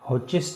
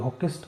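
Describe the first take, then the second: First: The middle consonant is a 'ch' sound. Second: The middle consonant is a 'k' sound. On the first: "हॉचिस्ट भी इसको कह देते हैं" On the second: "कोई हॉकिस्ट कह देते हैं"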